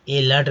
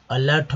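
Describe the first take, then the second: First: अलर्ट turned into "ay-lart"; wrong pronunciation. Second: अलर्ट opening on short "uh"; correct pronunciation. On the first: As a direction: start अलर्ट like the letter A. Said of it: "अलर्ट नहीं होगा". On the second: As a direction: say अलर्ट as "uh-LART". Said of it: "अलर्ट होगा". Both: Shown as a demonstration.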